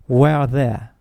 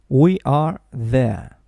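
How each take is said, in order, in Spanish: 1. Las dos primeras palabras se unen en una sola sílaba más rápida. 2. Cada palabra se dice como su propia sílaba fuerte. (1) "con el verbo contraído pronunciaríamos más rápido" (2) "la primera frase se pronunciaría"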